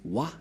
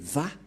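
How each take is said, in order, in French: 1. La syllabe commence par un son W. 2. La syllabe commence par un son V. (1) "C'est pourquoi les gens disent Wa" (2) "mais Va pour les Juifs"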